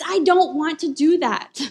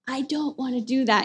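First: It is said in a natural speaking voice. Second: It is said in a gruff put-on character voice.

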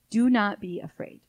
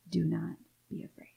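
First: It sounds like a stern royal command. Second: It sounds like a father comforting a child.

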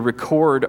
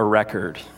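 First: The stress is on the second syllable. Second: The stress is on the first syllable. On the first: It is the verb. "You record" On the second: It is the noun. "a record"

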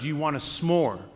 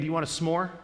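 First: It is said with strong, forceful emphasis. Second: It is said in a plain, casual way.

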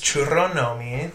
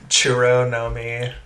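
First: The name is said with a Spanish accent. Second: The name is said with an American accent.

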